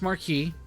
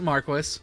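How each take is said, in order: First: It uses the usual modern pronunciation. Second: It uses an older, old-fashioned pronunciation. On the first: "I know it's pronounced Marquis" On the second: "The game pronounces it Marquis"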